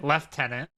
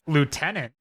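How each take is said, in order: First: It is said with a British pronunciation. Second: It is said with an American pronunciation.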